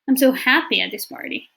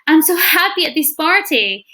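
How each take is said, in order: First: It is said in a hesitant, unenthusiastic tone. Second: It is said in a cheerful, enthusiastic tone. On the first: The speaker is not really happy at the party. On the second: The speaker really is happy at the party.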